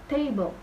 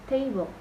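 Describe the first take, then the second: No difference in how they are said.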